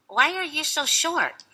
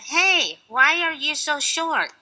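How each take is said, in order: First: It is said at a normal, quieter volume. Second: It is said in a louder voice.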